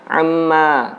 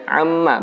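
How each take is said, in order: First: The word is drawn out long. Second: The word is kept short, not drawn out. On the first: The speaker calls it wrong. "bukan amma" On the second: The speaker calls it right. "Mimnya dibaca pendek"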